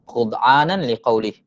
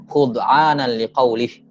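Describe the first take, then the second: Both takes have the same delivery.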